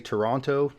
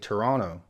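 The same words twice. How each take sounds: First: The second T sound is clearly pronounced. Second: The second T sound is dropped. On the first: It is how most Americans say it. "with emphasis on that second T" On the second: It is how most Canadians say it. "drop that second T sound"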